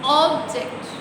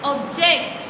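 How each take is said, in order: First: The stress is on the first syllable. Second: The stress is on the second syllable.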